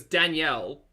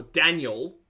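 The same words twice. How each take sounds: First: Danielle as dan-YELL; full "ell" ending on Danielle; two-syllable name. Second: Daniel as DAN-yul, weak ending; Daniel with no middle E, ending like Daryl. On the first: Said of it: "with no E in the middle". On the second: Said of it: "like Daryl". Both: Shown as a demonstration.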